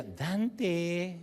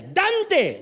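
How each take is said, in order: First: Soft, drawn-out Dante; mother's sweet call. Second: High, loud yell of Dante; mother's impatient call. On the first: Mother calling her boy to dessert, sweet and soft. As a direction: call Dante gently, stretching it out. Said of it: "me llamaba ... por su tono". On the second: Mother calling her late boy to dinner, impatient yell. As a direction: yell Dante high over other voices. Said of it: "ya llevaba una hora de atraso". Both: Retold or imitated.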